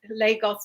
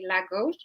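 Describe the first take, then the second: First: It is said the way the Nigerian city is. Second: It is said the way the Portuguese city is. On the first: It names the city in Nigeria. "Lagos has developed its own way of saying it" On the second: It names the city in Portugal. "the Portuguese city Lagos"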